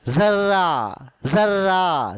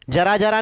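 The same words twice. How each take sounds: First: जर्रा with z and doubled r, zarra; जर्रा said zarra, z at the start; जर्रा z aur dohra r; nukta z sound. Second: जरा जरा with hard j, as jara jara; जरा जरा said the wrong way with j; जरा जरा, plain j; plain j, wrong take. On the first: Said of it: "ऐसा बोलना है इसको". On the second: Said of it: "जरा जरा नहीं है वो". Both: Shown as a demonstration.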